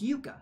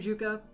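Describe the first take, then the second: First: The name begins with a Y sound. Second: The name begins with a J sound. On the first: The speaker calls it right. "the Y sound" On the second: The speaker calls it wrong. "I've been saying it wrong the whole time"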